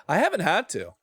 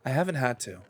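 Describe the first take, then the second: First: A rush of eager, higher energy; too excited. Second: Said in the usual way. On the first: Real, not acted. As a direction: blurt it out, overexcited. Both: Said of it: "I, I got too excited".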